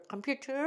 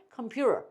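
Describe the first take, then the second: First: 컴퓨터 softly, with a distinct t and r ending; clear t. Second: 컴퓨터 said "keom-pyu-rer"; flapped t. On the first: Teacher drilling both variants, clear t. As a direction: sound the t in 컴퓨터. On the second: Teacher drilling both variants, flapped t. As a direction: turn the t of 컴퓨터 into r. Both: Shown as a demonstration. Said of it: "다시 해보시죠".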